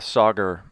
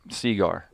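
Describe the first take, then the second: First: The first vowel sounds like 'ah'. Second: The first vowel sounds like 'ee'. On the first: The speaker calls it right. "He calls uh" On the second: The speaker calls it wrong. "he just screws up names all the time"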